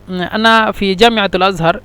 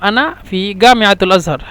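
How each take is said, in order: First: The first letter of جامعة is a j sound. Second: The first letter of جامعة is a hard g. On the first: This is the standard form of the sentence. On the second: This is the everyday Egyptian form.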